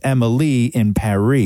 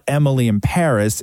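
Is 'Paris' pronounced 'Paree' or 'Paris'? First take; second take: Paree; Paris. First: Paris is said like Paree, rhyming with Emily. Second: Paris is said the usual way, not rhyming with Emily. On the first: The speaker calls it right. "It's Emily in Paris" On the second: The speaker calls it wrong. "the pronunciation of the show is not Emily in Paris"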